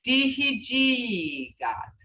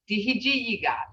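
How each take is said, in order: First: Dihijigat drawn out very slowly, falling; slow demo word. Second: Said in the usual way. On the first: Shown as a demonstration. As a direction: sound out Dihijigat for the class. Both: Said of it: "those are in your sounds".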